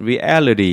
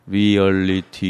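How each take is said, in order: First: One syllable is said noticeably stronger than others. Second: All syllables are said evenly, without strong stress. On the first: The speaker calls it right. "영어에서는 reality 이렇게 읽잖아요. 그렇게 강세가 있는 걸" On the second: The speaker calls it wrong. "reality 이렇게 읽지 않고"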